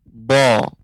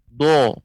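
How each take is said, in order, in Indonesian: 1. Suku kata ini diucapkan tanpa bibir bulat dan monyong. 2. Suku kata ini diucapkan dengan bibir bulat dan monyong. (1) "jadi kita panjangkan lidah kita ke depan" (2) "jangan sampai monyong, ... ini juga keliru"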